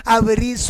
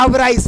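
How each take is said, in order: First: "अब रीस" with a long ee; correct pronunciation. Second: "अब राइस" ending in rice; wrong pronunciation. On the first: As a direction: draw out "अब रीस" as av-rees. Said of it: "इसको पढ़ना क्या है". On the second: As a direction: misread it as "अब राइस", eye vowel. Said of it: "लेकिन गलत हो जाएगा". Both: Shown as a demonstration.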